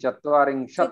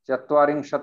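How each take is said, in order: First: The word ends on a bare t consonant. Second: The word ends with a short vowel after t. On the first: The speaker calls it right. "अंत में हलंत है" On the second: The speaker calls it wrong. "चत्वारिंशत नहीं"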